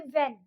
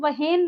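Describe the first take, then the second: First: No h sound is heard after the w. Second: An h sound is heard after the w. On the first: The speaker calls it right. "एच हो जाएगा silent, हम बोलेंगे वेन" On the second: The speaker calls it wrong. "इसको हम वहेन नहीं बोलेंगे"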